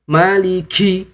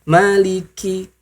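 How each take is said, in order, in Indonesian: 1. Bunyi k-nya diucapkan dengan hembusan napas yang kuat. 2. Bunyi k-nya diucapkan ringan dengan sedikit napas. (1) "Jangan sampai maliki" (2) "Santai saja"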